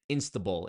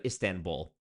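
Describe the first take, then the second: First: Istanbul said as "Insta-bull"; mispronounced Istanbul. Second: Said in the usual way. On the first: Retold or imitated. Mocking a lady from a video, mispronounced Istanbul as "Insta-bull". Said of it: "who said Istanbul instead". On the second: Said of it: "instead of Istanbul".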